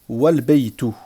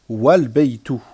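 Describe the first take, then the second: The two takes are said the same way.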